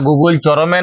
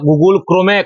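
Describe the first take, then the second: First: The second word starts with a 'ch' sound. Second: The second word starts with a 'kr' sound. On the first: The speaker calls it wrong. "ওটা Google চরমে নয়" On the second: The speaker calls it right. "ওটা Google ক্রোমে"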